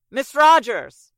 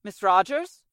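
First: Loud, drawn-out call through a closed door; slow, loud call to someone behind a door. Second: Said in the usual way. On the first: Acted. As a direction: shout her name so she hears you inside. Calling louder through the door.

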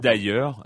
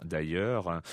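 First: Said in the usual way. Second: Much lower, softer repeat; low aside. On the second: Shown as a demonstration. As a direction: drop it into a low murmur.

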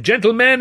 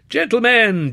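First: Higher and louder, ending on a rise; bellowing. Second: High, loud call to order; bellowing. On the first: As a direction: call out again, rising at the end. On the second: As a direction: bellow over a rowdy crowd. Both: Acted. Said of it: "Browse bellowed".

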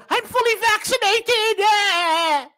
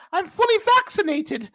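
First: High slow whiny mock voice. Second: High, louder mocking voice; quick mock of the woman. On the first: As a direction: parody the smug vaccinated woman. Mock quote again. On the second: First take of quote.

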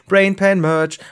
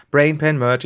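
First: Loud, punchy slogan call; slogan shout. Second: Said in the usual way. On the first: Pretend. Werbeslogan, laut gerufen. (laut ausgerufener Werbeslogan)

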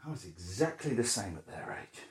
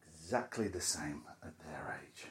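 First: Said in the usual way. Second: Hushed whispered echo of "Exactly the same at their age"; a soft whispered aside to himself. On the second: Real, not acted. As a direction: whisper it back to yourself. Whispered repeat of the line.

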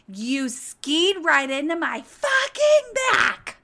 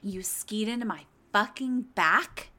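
First: Loud, high, slow furious yell of a diva; diva meltdown yell. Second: Said in the usual way. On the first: Retold or imitated. Gwen yelling at the skier who crashed into her, furious and loud. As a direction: lose it completely on the man who hit you. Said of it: "Gwen losing her fucking shit and having a diva moment". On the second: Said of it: "having a diva moment".

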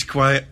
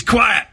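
First: Said in the usual way. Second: Sudden high-pitched command, acted; manager demanding silence. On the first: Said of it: "And as he says". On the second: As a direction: play the gaffer cutting through the noise. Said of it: "he slams the door".

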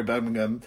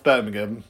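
First: "Birmingham" said again the proper way; "Birmingham" pronounced correctly, softer; corrected Birmingham. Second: "Birmingham" said with a lower, different pronunciation; "Birmingham" in a jokey off version; mispronounced Birmingham. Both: Shown as a demonstration. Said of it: "sorry, Birmingham".

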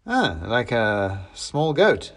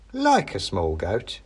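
First: Said in the usual way. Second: Like leaned on, slow and knowing; weight the word Like so it sounds sinister; stress on like. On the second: Acted. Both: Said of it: "with an emphasis on the like".

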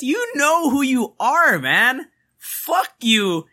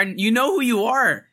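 First: You know who you are, slower and higher; pointed high callout. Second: Said in the usual way. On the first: Real, not acted. Telling the client off on the podcast, higher and slower. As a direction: call them out, drawn out and higher.

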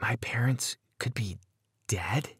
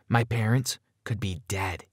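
First: Hushed, fearful whisper; soft, whispered disbelief; frightened whisper. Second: Said in the usual way. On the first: A narrator's reading. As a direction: whisper it in dawning horror. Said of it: "I whispered with a trembling lip".

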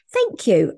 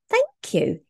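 First: Said in the usual way. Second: Chirpy, delighted "Thank you."; bright high thank you. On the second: Retold or imitated. Quoting a cheerful reply.

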